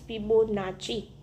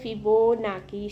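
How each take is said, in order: First: The name ends with a ch sound before the final i. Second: The name ends with a k sound before the final i. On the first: "the real pronunciation of the ફિબોનાકી શ્રેણી is" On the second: "તેને આપણે કહેવાય છે ફિબોનાકી શ્રેણી"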